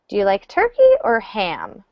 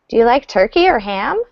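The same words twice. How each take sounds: First: The pitch falls at the end. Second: The pitch rises at the end. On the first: The listener must choose one of the two options. "So with the downward intonation" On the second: The speaker asks whether the listener likes each one. "but if I say it with upward intonation"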